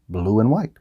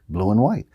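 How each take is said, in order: No difference in how they are said.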